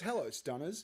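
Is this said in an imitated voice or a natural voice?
natural. It is said in the speaker's normal voice.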